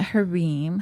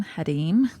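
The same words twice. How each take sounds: First: Harim with an English R; Harim, American-style R; anglicized pronunciation. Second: Harim with a tapped R; Harim, tongue-tap R as in Spanish; accented pronunciation. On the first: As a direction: say Harim with a plain American R in the middle. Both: Shown as a demonstration. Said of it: "I don't know if I should say it like that".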